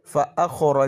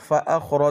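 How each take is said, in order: Both takes have the same delivery.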